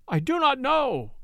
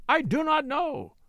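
First: High, desperate cry of denial; frantic denial. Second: Higher, drawn-out pleading cry; slower desperate repeat. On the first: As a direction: plead for his life, pitched high. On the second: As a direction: drag out the denial, begging. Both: A narrator's reading. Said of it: "cried Werper".

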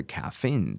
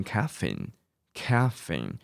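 First: Caffeine with the stress at the back, caf-FEINE; stress on second syllable. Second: Caffeine with the stress up front, CAF-feine; stress on first syllable. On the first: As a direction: lean on the last syllable of caffeine. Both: Shown as a demonstration. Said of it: "重音你摆前面或摆后面都可以哦".

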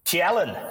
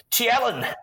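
First: Said in the usual way. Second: "Tialan" said much higher as TEE-eh-lan in the villain's dialect; "Tialan" pitched up high with a drawn-out vowel; epic dialect. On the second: Retold or imitated. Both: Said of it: "had an epic dialect".

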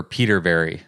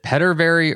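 First: Peterberry with long ee, like Peter; PETER pronunciation. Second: Petterberry with short e, as in pet; PETTER pronunciation. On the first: Host asking guest about his surname, Peterberry with long ee. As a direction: say Peterberry with PEE at the front. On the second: Host asking guest about his surname, Petterberry with short e. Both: Shown as a demonstration. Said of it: "pronounce your last name? Is it".

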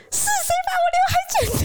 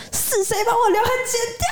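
First: Put-on high, fast child's outraged yell; child's shrill furious shout; loud demand. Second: High, tearful angry demand; crying angry little girl; angry child. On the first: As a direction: shout out who cut my bangs. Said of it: "很大声的问说". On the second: Retold or imitated. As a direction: cry out who cut my bangs, upset. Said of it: "非常生气说".

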